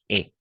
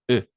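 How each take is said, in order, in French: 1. Un E ouvert se dit avec les lèvres étirées. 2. Un E fermé se dit avec les lèvres arrondies. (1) "Y la E abierta es como la nuestra" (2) "labios como O, los pongo ahora O, pero voy a decir al final E"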